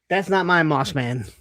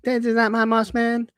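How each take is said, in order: First: It is said in the speaker's ordinary voice. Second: It is said in a put-on character voice.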